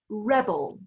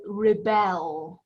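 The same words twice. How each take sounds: First: Rebel stressed on the first syllable, REB-el; noun stress. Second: Rebel stressed on the second syllable, re-BEL; verb stress. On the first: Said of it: "the emphasis is on at the beginning". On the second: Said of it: "we can pronounce this in two ways". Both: Shown as a demonstration.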